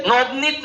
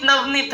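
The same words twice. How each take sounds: First: नवनीत said as "Nobnit", rounded "o" first; Bengali pronunciation. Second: Said in the usual way. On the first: Shown as a demonstration. Teacher teases Bengalis over vowels, नवनीत becomes "Nobnit". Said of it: "ओ लगा तो चाहे आ लगा". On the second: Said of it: "तुम लोग के लिए तो एक ही ना".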